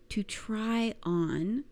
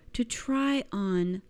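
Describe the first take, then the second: No difference in how they are said.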